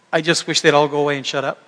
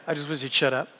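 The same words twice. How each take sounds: First: Said in the usual way. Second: A quiet, muttered afterthought; softer muttered aside. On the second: Real, not acted. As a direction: repeat it much softer, half to yourself. Repeated aside, muttered softly.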